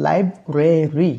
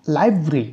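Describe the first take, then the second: First: লাইব্রেরি slow, every syllable, lai-bre-ri; লাইব্রেরি stretched out as the wrong version; full library, wrong. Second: লাইব্রেরি said as two syllables, lai-bri; লাইব্রেরি run together as lai-bri; elided library. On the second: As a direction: clip the middle of লাইব্রেরি. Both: Shown as a demonstration. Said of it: "not লাইব্রেরি".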